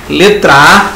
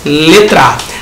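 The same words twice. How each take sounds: The two takes are said the same way.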